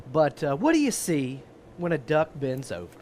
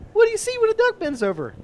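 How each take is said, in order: First: Said in the usual way. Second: High cheesy joke voice, way up; embarrassing dad joke. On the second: Shown as a demonstration. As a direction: ham up the corny setup. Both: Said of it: "ask it a different way".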